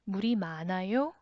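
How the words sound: The voice rises at the end.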